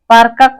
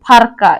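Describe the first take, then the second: First: The word begins with a plain p sound. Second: The word begins with a breathy ph sound. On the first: This is the standard Mundari form. "पारका को" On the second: This is the Nagpuri Mundari form. "नागुरी मुंडारी में पारका को फारका इस तरह से उच्चारण करते हैं"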